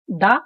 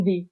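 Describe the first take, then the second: First: "the" as a short "thuh", schwa vowel. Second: "the" with a long "ee" vowel, "thee". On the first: Bengali teacher demonstrating "the" as thuh. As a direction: say "the" with a clipped "uh". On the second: Bengali teacher demonstrating "the" as thee. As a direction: stretch "the" into "thee". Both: Shown as a demonstration. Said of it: "দিও উচ্চারণ করি এবং দা".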